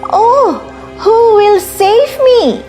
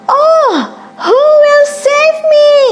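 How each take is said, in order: First: It is said a little louder. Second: It is said as loud as possible.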